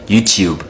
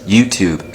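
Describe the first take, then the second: First: YouTube said as YOU-tyoob; South African pronunciation. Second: YouTube said as YOU-toob; American pronunciation. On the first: Comparing South African words for viewers, YouTube as YOU-tyoob. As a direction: say YouTube with a y-glide after t, close to chube. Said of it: "South Africans call it". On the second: Comparing American words for viewers, YouTube as YOU-toob. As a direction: say YouTube with a plain t before oo. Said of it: "Americans call this". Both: Shown as a demonstration.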